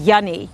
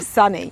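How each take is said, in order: First: The word begins with a Y sound. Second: The word begins with an S sound. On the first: "he used to say it was Yunny" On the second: "instead of Sunny"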